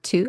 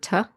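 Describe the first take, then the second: First: The word has a full, long 'oo' vowel. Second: The word has a short, reduced 'uh' vowel. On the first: "I don't say the word to" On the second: "I say the word tuh"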